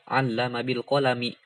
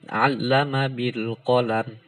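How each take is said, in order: First: The final word ends with a short vowel. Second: The final word ends on a bare consonant. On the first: The speaker calls it wrong. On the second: The speaker calls it right. "ketika waqaf ya dibacanya disukunkan"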